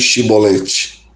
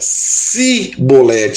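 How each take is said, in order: First: The word starts with an sh sound. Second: The word starts with an s sound. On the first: The speaker calls it right. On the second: The speaker calls it wrong.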